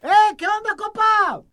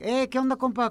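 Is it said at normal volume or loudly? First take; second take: loudly; normal. First: It is said loudly, almost shouting. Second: It is said at a normal volume.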